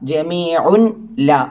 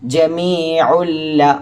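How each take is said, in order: First: The n is kept and the words stay separate. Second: The n merges into a doubled l sound. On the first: The speaker calls it wrong. "എന്ന സ്ഥലത്ത്" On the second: The speaker calls it right. "ഇങ്ങനെ ഓതി"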